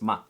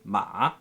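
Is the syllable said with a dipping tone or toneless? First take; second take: toneless; dipping. First: The syllable is short and light with no tone. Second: The syllable has a falling-then-rising dipping tone. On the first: It marks a question. "this is toneless" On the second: It means horse. "the dipping tone"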